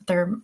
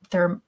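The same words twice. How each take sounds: The two takes are said the same way.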